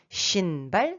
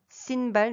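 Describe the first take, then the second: First: Shinbal starting with a hushing SH; corrected Shinbal, long SH at the start. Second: Sinbal starting with a plain hissed S; wrong S. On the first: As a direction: begin Shinbal with SH, not S. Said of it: "ça c'est juste". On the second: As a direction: say Sinbal with S instead of SH. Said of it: "n'est pas juste". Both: Shown as a demonstration.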